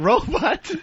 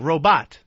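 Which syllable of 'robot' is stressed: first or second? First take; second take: first; second. First: The stress is on the first syllable. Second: The stress is on the second syllable. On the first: The speaker calls it wrong. "Not robot" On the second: The speaker calls it right. "Second syllable"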